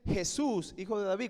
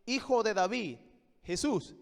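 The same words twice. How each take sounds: First: "Jesús" stressed, then a light "hijo de David". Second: "hijo de David" stressed, "Jesús" soft after. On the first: Preacher shows the Reina Valera reading, stress on "Jesús". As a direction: lean on "Jesús" first. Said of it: "como que el énfasis estuviera en Jesús". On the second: Preacher shows the Greek reading, stress on "hijo de David". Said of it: "en el griego el énfasis está en". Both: Shown as a demonstration.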